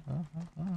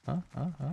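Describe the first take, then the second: No difference in how they are said.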